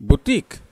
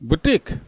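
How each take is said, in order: First: It is said like 'booteek', long final vowel. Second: The same.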